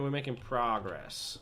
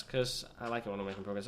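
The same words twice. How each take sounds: First: Put-on slow, drawn-out American accent. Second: Said in the usual way. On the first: British gamer imitating American accent, slow and drawn out. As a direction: stretch progress the American way. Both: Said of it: "if you're American".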